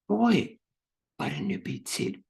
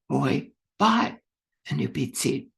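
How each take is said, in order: First: The word boy carries the main stress. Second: The word bought carries the main stress. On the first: It was a boy, not someone else. "putting the emphasis on the correct word" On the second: The seat was bought, not sold. "putting the emphasis on the correct word"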